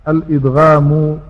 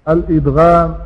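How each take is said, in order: The two takes are said the same way.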